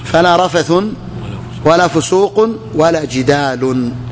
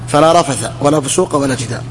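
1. تنتهي الأسماء بحركة تليها نون. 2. تنتهي الأسماء بحركة قصيرة، بلا نون. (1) "قراءة ثانية أبو أحمد بالتنوين" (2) "قراءة بالفتح"

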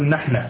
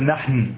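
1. تنتهي الكلمة بفتحة قصيرة. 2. تنتهي الكلمة بدون حركة نهائية. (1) "وهو عند اللبنانيين مبني على الفتح، يقول نحن" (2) "كيف السكون؟ ... لم أقل نحن"

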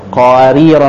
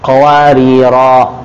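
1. Vokal akhir dibaca pendek, disambung dengan kata berikutnya. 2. Vokal akhir dibaca panjang saat berhenti. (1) "Kalau dia diwasal, qawarira yang pertama bacanya pendek" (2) "dibaca panjang ketika disukunkan"

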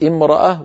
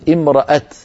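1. تنتهي الكلمة بصوت h خفيف. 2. تنتهي الكلمة بصوت t واضح. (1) "فكثير من القبائل يقف امرأة" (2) "وبعض القبائل تقف امرأة بالتاء المبسوطة كالوصل"

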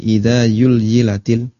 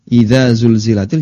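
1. Kata ini dimulai dengan bunyi y. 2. Kata ini jelas dimulai dengan bunyi z.

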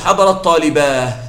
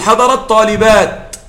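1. تنتهي الكلمة الأخيرة بصوت h. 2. تنتهي الكلمة الأخيرة بصوت t. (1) "ويجوز قليلا أن تقف بالهاء" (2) "الأصل أن أقف عليه بالتاء"

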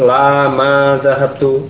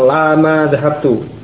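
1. Ada jeda setelah 'la'. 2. Tidak ada jeda setelah 'la'. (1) "Jadi terpisah ya. Jadi bukan bersambung" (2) "Jangan langsung lama zahabtu, nanti bingung"

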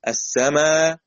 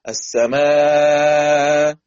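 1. تُمَدّ الحركة الطويلة الأخيرة حركتين. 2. تُمَدّ الحركة الطويلة الأخيرة أربع حركات. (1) "حركتين" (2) "أربعة"

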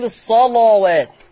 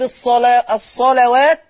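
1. صوت اللام ثقيل ومفخم. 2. صوت اللام خفيف ومرقق. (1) "ورش يفخمها" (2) "اللام مرققة عند حفص"

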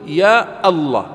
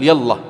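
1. تُسمع همزة قبل لفظ الجلالة. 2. تتصل الحروف بلا همزة قبل لفظ الجلالة. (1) "وقطع همزته، فتقول" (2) "ولا تقول"

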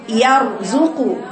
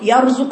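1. تُقرأ الكلمة ببطء، وكل حرف منفصل عن الآخر. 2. تُقرأ الكلمة بسرعة، والحروف متصلة ببعضها. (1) "خدي الياء رقيقه والراء مفخمه والزال رقيقه" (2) "البعض يقرا كده يرزق بسرعه"

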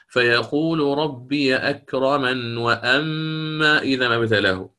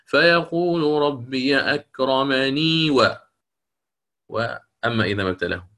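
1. لا تنتهي الكلمة بصوت 'ee' نهائي. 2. تنتهي الكلمة بصوت 'ee' نهائي. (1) "لو أنا الآن أتيت بالوصل" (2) "ولي الوجه الثاني"

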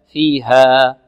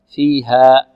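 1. تنتهي الألف الطويلة الأخيرة بدون همزة وقف. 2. تنتهي الألف الطويلة الأخيرة بهمزة وقف. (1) "نقف على الألف التي بعد الهاء بمقدار حركتين" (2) "لا ننهي الألف بهمزة ... خطأ"

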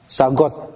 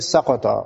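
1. Konsonan di tengah adalah bunyi g yang keras. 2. Konsonan di tengah adalah bunyi q yang dalam.

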